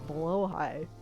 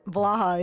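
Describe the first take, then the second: First: The name is said like 'blow-high'. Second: The name is said like 'blah-ha'. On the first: The speaker calls it right. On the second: The speaker calls it wrong.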